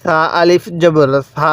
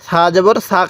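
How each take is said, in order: First: Slow correct spelling, last "সা" stretched; drawn-out vowel. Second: Wrong version with the last সা cut short; সা জবর সা with no held vowel. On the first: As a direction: hold the final সা long. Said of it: "এক আলিফ টান দিব". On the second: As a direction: keep the final "সা" brief. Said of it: "কেউ পড়ব না". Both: Shown as a demonstration.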